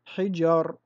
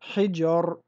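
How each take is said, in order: The two takes are said the same way.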